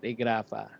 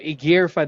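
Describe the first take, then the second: First: The name is said as Igrafa. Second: The name is said as Igirfa. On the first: The speaker calls it wrong. "not Igrafa" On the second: The speaker calls it right. "Igirfa daw"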